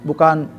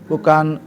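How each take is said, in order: The two takes are said the same way.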